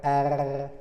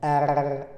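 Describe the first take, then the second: First: The R is said with a Marseille accent. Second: The R is said with a Marseille accent.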